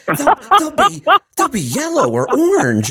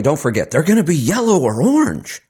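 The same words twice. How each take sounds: First: Put-on much higher, talking to a three-year-old; sing-song as if to a toddler; Kamala Harris impression. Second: Said in the usual way. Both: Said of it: "that's how she says it".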